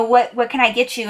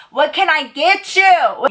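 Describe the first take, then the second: First: Said in the usual way. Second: Higher, slow, drawn-out repeat to be heard; raised voice. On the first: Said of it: "Wait, I can't hear you". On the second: Acted. Waitress repeats herself to a guy over loud music, raised voice. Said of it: "the music was loud".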